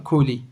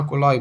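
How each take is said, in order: First: The word ends with an 'ee' sound. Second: The word ends with an 'eye' sound. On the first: "بس ايه، نطقها كولي" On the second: "نطقها كولاي"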